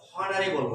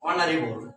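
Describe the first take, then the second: First: The word begins with an h sound. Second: The word begins with a vowel sound. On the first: The speaker calls it wrong. "এখানে কিন্তু হনারেবল না" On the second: The speaker calls it right. "এইচ এর উচ্চারণটা কিন্তু অনিচ্চারিত থেকে যাচ্ছে"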